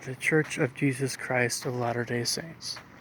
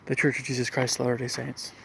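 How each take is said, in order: First: It is said slowly. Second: It is said fast.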